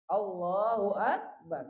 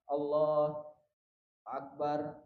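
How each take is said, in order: First: The two words run together without a break. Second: A short breath-length pause separates the two words. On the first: "terus menerus langsung dibaca" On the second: "seukuran mengambil nafas"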